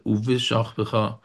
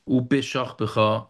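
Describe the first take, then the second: First: The consonant after the opening 'u' is a soft v. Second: The consonant after the opening 'u' is a hard b. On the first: The speaker calls it right. "as opposed to" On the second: The speaker calls it wrong. "Don't say it as a bi"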